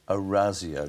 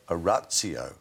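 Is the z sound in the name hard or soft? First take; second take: soft; hard. First: The z sound is soft. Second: The z sound is hard. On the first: The speaker calls it right. "It's a softer Z sound" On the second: The speaker calls it wrong. "not Orazio"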